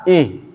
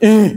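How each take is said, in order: First: The sound comes plainly from deep in the throat. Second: The sound is pushed out from the chest. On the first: The speaker calls it right. "Biasa saja, ... Itu dalam, tenggorokan dalam" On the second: The speaker calls it wrong. "Jadi bukan ih, bukan itu huruf dada"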